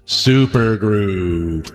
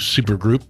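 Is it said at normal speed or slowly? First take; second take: slowly; normal. First: It is said slowly and drawn out. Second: It is said at normal speed.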